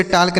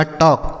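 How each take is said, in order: First: टाल्क with the L sounded; misread silent L. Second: टॉक with no L sound; silent L. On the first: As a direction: pronounce the L before K in टाल्क. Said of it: "बच्चों इसे टाल्क नहीं पढ़ेंगे". (टाल्क में ल की आवाज़ साफ़ बोलते हुए) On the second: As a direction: go straight from the vowel to K in टॉक. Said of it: "silent है". (टॉक में ल बोले बिना) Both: Shown as a demonstration.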